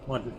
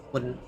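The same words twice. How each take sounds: The two takes are said the same way.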